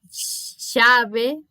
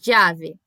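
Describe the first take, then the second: First: The first sound is like 'sh'. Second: The first sound is like 'dj'. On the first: "quase como um X" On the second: "eu pronuncio como se fosse quase um D J junto"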